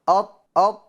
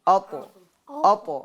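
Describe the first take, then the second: First: The final consonant is cut off with no release. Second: The final consonant is released with an echoing bounce. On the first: The speaker calls it wrong. "आवाज़ मखरज में रोक देंगे तो ये गलत है" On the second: The speaker calls it right. "आवाज़ लौट कर आएगी"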